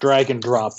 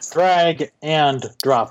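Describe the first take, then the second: First: It sounds like dragon drop, words run together. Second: It sounds like drag and drop, words kept apart. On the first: It evokes dragons and fire. The speaker calls it wrong. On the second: It means moving items on screen. The speaker calls it right.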